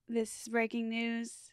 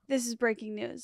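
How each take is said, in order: First: It is said in an imitated politician's voice. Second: It is said in the speaker's own natural voice.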